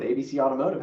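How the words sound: The voice is warm and lively. The caller feels welcome and comfortable. The speaker calls it right. "warm it up a bit"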